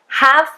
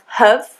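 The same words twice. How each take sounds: First: The word is said in its full, strong form. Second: The word is said in a reduced, weak form. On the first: "we don't often pronounce auxiliary verbs in a strong way" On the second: "It can be much weaker"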